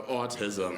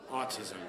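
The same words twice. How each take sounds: First: Lower, lone mumbled audience answer; audience calling out. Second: Said in the usual way. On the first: Retold or imitated. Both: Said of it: "hear an audience just go".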